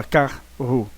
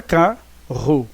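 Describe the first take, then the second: First: "carro" broken as car; separação artificial. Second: "carro" split as ca; pronúncia natural separada. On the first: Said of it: "você não fala carro". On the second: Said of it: "Você fala carro". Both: Shown as a demonstration.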